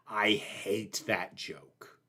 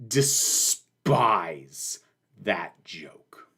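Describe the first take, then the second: First: Slow, low and much softer, dragging every word; low slow disgust. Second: A breathy whisper of contempt; whispered disgust. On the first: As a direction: grind it out in low, hushed contempt. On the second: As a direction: whisper it like a dark confession. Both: Real, not acted. Declaring dislike of a joke.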